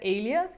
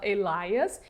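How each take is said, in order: First: The word is said like 'alias'. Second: The word is said like the name 'Elias'. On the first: The speaker calls it right. "Uma delas é alias" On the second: The speaker calls it wrong. "por algum motivo eu falava Elias"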